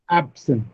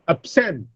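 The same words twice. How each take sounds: First: The stress is on the first syllable. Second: The stress is on the second syllable. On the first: It is used as a noun or adjective. "the stress is on the first syllable" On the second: It is used as a verb. "the stress changes on the or shifts on the second syllable"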